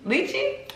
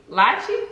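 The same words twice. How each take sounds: First: "Lychee" said as "LEE-chee", ch sound, high rising; repeating "Lychee" as "lee-chee" after the correction; corrected lychee. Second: "lychee" said as "LASH-ee", sh sound, unsure rising; guessing at "lychee" as "lashee" with a questioning lift; mispronounced lychee. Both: Real, not acted.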